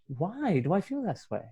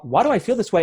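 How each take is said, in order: First: The question sounds soft and gentle. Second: The question sounds harsh and accusing. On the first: The person is curious about their feelings. The speaker calls it right. "it's almost like a softer question" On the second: The person is judging themselves. The speaker calls it wrong. "not judging yourself like"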